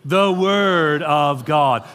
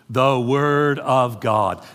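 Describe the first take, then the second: First: Slow, fuller "The Word of God"; repeat louder. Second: Slow, spaced "The Word of God"; call and response. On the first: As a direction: say it again with more voice. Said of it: "Try it again". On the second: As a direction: lead the room in saying it slowly. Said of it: "say that out loud with me". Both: Shown as a demonstration.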